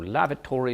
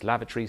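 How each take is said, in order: First: The word is said with four syllables. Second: The word is said with three syllables. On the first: "quadrisyllabic words tend to become trisyllabic"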